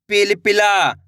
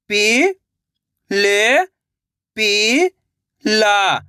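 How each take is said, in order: First: Said in the usual way. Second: "पि-ल-पि-ला" very slowly, each syllable held; sounding out slowly. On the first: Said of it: "तो मिलके बन जाएगा". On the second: Shown as a demonstration. Teacher showing children how to sound out a word. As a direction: sound out "पि-ल-पि-ला" piece by piece. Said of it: "एक एक अक्षर का उच्चारण करके".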